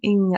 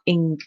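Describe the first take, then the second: First: The ending is said lightly and softly. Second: The ending is said strongly with a hard G. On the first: The speaker calls it right. "just a slight ing at the end" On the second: The speaker calls it wrong. "not ing"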